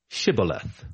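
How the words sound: It begins with an sh sound, Gileadite style.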